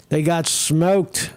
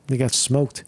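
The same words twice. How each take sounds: First: Slow drawn-out repeat. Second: Said in the usual way. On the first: Real, not acted. Repeats line slowly.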